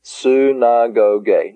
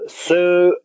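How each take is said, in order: First: "Synagoge" as one word, soo-nah-go-gay; joined-up word. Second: "synagoge" in spaced syllables, soo-nah-go-gay. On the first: Teacher saying the whole word "Synagoge", joined up. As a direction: link the syllables of "Synagoge" smoothly. Same word then run together. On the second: Teacher sounding out "synagoge" again for learners, syllable by syllable. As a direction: separate each syllable of "synagoge", pitched higher. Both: Shown as a demonstration.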